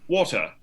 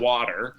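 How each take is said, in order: First: It is said in a BBC British accent. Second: It is said in an American accent. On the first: "then like on the B B C, they're like" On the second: "we say"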